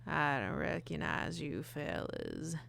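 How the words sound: The voice is rough and raspy.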